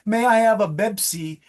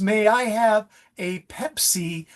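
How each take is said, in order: First: The word starts with a voiced b sound. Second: The word starts with a strong p sound. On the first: The speaker calls it wrong. "a voiced Bebsi" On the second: The speaker calls it right. "the Pepsi with a strong plosive P"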